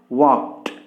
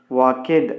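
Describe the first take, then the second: First: The ending is a plain t sound. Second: The ending is not a plain t sound. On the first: The speaker calls it right. "We must pronounce it as t sound" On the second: The speaker calls it wrong. "We should not pronounce it as walked"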